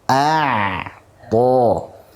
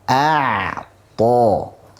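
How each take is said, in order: The two takes are said the same way.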